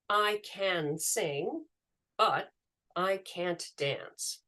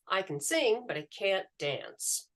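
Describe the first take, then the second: First: Each word is pronounced fully, without reductions. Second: 'Can' is reduced to a schwa and words blend. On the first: The speaker calls it wrong. "if a learner speaks like that" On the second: The speaker calls it right. "when I say"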